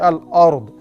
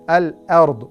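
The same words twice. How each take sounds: First: The opening hamza is said heavy and full-mouthed. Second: The opening hamza is said light and thin. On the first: The speaker calls it wrong. "They say al-ard. ... the pronunciation is wrong" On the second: The speaker calls it right. "hamza empty mouth"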